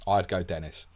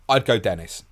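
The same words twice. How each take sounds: First: Said in the usual way. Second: Louder, punched final answer; emphatic verdict. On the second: Real, not acted. Answering a listener's bench question, emphatic. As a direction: land the call with force.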